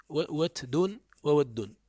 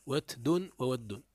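First: "وتد" and "وود" said very slowly, syllable by syllable; slow pronunciation demo. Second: "وتد" and "وود" repeated slowly, level voice; slow pronunciation demo. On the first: (نطق "وتد" و"وود" ببطء شديد) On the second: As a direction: say "وتد" then "وود" slowly once more. (تكرار "وتد" و"وود" ببطء) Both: Shown as a demonstration. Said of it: "فيه لغات".

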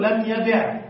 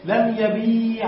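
First: لم يبع with the ya dropped, short yeb'; short form. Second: لم يبيع slow, long ya held in yabee'; long ya kept. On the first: Teacher contrasting forms for students, ya dropped. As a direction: say لم يبع clipped, no long ya. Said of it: "نقول". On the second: Teacher contrasting forms for students, ya held long. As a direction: stretch the ya in لم يبيع. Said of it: "بثبوت الياء". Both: Shown as a demonstration.

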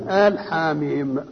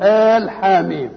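First: آل drawn out slowly with weight, then حاميم; teacher stresses آل slowly, answering his own quiz. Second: Said in the usual way. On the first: Shown as a demonstration. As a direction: slowly spell out آل حاميم for the class. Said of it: "آل إيه؟". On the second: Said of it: "الأصح نقول".

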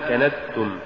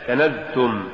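First: كنزتم with a voiceless s; wrong s for z. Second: كنزتم with a voiced z; careful كنزتم with a buzzing zay; correct z sound. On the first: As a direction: demonstrate the error كنزتم as kanastum. (كنزتم بالسين بدل الزاي خطأً) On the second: (كنزتم بزاي مجهورة) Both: Shown as a demonstration. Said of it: "تقرأ لحنا".

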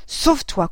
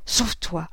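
First: Higher and louder, breaking with anger; anger bursts through the repeat; angry urging. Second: Low, broken with suppressed anger; choked with anger. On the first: Mother urges the boy away, anger rising. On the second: Mother urges the boy away, anger held down. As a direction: bite it back, voice catching. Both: A narrator's reading. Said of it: "d'une voix entrecoupée par la colère".

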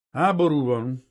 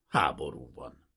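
First: Almost apologetic. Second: "Háború van" lower and falling, like closing the matter; resigned apology. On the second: Sergeant excuses the search to the prince, falling and resigned. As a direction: let "Háború van" sink into a lower, falling, regretful close. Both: A narrator's reading. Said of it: "szinte bocsánatkérően".

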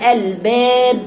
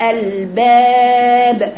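First: الباب with the vowel tilted, slow; الباب shown the wrong way; wrong pronunciation. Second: الباب slow with a wide open a; الباب shown the right way; correct pronunciation. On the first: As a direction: drawl الباب with a leaning vowel. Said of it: "الباب خطأ". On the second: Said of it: "الصحيح". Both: Shown as a demonstration.

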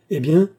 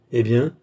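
First: Higher, louder insistent eh bien; emphatic repeat. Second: Said in the usual way. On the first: A narrator's reading. Don Manoel insisting to Beausire, higher and louder. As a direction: push the second eh bien up.

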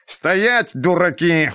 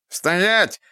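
First: Higher shrill squeal, rising; shrill screeching bird woman. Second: High shrill squeal; shrill screeching bird woman. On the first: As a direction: screech it even higher at the fools. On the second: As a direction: screech like a rat-man. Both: A narrator's reading. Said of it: "пронзительно завизжал он".

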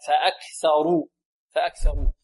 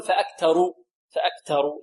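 First: Tongue tip to upper teeth for ث in فأكثروا; correct interdental ث. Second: فأكثروا with ث hardened into a plain t; wrong ث as t. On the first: Teacher corrects the t, clear th in فأكثروا. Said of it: "تخرج من طرف اللسان". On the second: Teacher shows students the error, a t in فأكثروا. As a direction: say فأكثروا as "fa-aktaru". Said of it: "لا نقول". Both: Shown as a demonstration.

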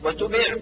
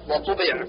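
First: وتبع with light t for ط; thin the ط of وطبع to ت; taa thinned. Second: وطبع with heavy dark t; emphatic taa. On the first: Teacher shows the error, وتبع with plain t. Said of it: "جعل الطاء تاء". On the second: Teacher corrects, وطبع with emphatic t. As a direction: press a full ط in وطبع. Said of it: "والصواب". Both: Shown as a demonstration.

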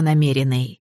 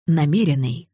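First: Dry self-assurance. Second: Self-mocking. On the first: Acted. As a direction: reassure yourself, deadpan. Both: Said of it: "конечно, намеренный".

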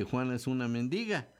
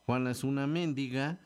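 First: Mendiga said as men-DI-ga; stress on DI. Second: Mendiga said as MÉN-di-ga; stress on MÉN. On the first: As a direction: lean on the middle syllable of mendiga. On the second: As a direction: punch the first syllable of mendiga. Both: Shown as a demonstration. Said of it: "no es lo mismo decir".

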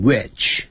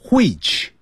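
First: WHICH with a plain w and short i, "witch"; no h at the start of which; North American which. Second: WHICH with a breathed h and long vowel, "hweech"; higher-pitched which opening on an h puff; British-style which. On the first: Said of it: "加拿大英语念成". (美加发音，which不带h，短音i) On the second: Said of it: "不要念成". (错误示范：which带h音，读作hweech) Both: Shown as a demonstration.

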